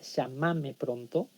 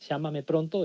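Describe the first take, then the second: First: The stress is on the second syllable, ma. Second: The stress is on the first syllable, lla.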